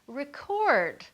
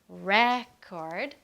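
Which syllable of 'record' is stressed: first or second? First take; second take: second; first. First: The stress is on the second syllable. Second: The stress is on the first syllable. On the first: It names an action. "with the stress on the second" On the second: It names a thing. "with the stress on the first part"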